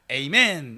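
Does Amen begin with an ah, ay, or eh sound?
ay. The first vowel is 'ay', as in ay-men. "영어로도 에이멘 이러거든요"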